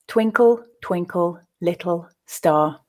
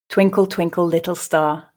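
First: The line is said slowly. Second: The line is said at a natural pace. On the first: "reading each verse slowly" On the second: "then at a more natural pace"

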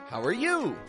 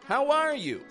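First: The stress falls on the word 'you'. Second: The stress falls on the word 'are'. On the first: The speaker is returning the question to the other person. "Person number two stresses you" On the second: The speaker is asking first, starting the exchange. "So person number one stresses R"

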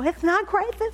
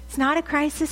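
First: The s sounds are lisped like th. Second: The s sounds are clear and normal.

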